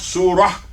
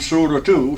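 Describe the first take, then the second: First: The word ends with a soft h sound. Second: The word ends with a t sound. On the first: The speaker calls it right. "we pronounce surah" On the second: The speaker calls it wrong. "it's actually written surah two"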